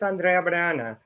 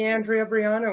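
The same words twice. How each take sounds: First: The name is said with a Spanish accent. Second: The name is said with an American accent.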